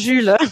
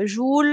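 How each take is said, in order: First: The vowel is the French front rounded 'u'. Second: The vowel is a rounded 'oo' sound. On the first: This is how the family says the name. The speaker calls it right. "très loin de mon Jules" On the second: This is how Italians say the name. The speaker calls it wrong. "c'est plus, heu, Joule, Joule"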